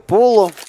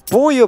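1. Средний согласный звучит как L. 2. Средний согласный звучит как Y. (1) "читается как Поло" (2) "на английском стриме все-таки Поя говорят"

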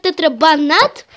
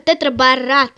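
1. Слово заканчивается на звуки -banat. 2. Слово заканчивается на звуки -borat. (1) "Некоторые говорят тетрабанат" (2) "но правильно – тетрабарат"

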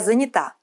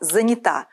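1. Ударение не на последнем слоге. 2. Ударение на последнем слоге. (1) "Как правильно" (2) "верно только занята"

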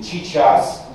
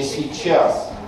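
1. Слово начинается с игривого звука «ч». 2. Звук «й» слышен четко, произнесено аккуратно. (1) "игровой вариант" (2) "сохранением йота ... сдвинутое в зону книжности"

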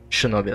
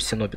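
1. Слово начинается со звука 'sh'. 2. Слово начинается со звука 's'. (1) "Давайте Шиноби назвать" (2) "я не могу Синоби назвать"

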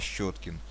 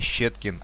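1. Первый гласный звучит как 'yo'. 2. Первый гласный звучит как 'ye'. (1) "с буковкой Ё прям" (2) "не Щеткин"

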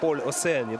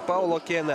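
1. В середине фамилии звук S. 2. В середине фамилии звук K. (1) "согласно, наверное, правилам французского языка" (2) "ориентировался я на, вот видите, на официальный протокол"

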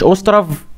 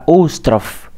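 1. الصوت الساكن الأخير مجهور. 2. الصوت الساكن الأخير مهموس. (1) "يعني مش أوسترف" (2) "لأ أوسترف"

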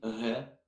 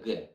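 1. «Г» — мягкий южный региональный звук. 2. «Г» — стандартный твёрдый взрывной звук. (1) "кто-то из Краснодара научил вашего ребенка произносить «г»" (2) "вместо «г»"

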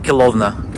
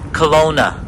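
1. Название произносится по-русски. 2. Название произносится по-английски. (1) "А по-русски это Келовна. То есть практически как одеколон" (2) "немцы и канадийцы говорят Келовна"

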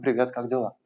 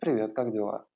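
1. Приветствие произносится взбудораженно, волнами. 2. Приветствие произносится тяжело и с усилием. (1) "пространство сделано из потоков воды, которые тревожны" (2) "вы можете это сделать в материи глины"

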